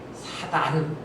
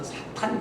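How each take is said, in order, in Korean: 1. 두 번째 음절은 평음 'd' 소리로 시작합니다. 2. 두 번째 음절은 거센소리 't' 소리로 시작합니다. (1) "예전 개역 성경에는 사단 이렇게 번역을 했는데" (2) "발음을 좀 정확하게 해서 사탄 그러면 좋겠어요"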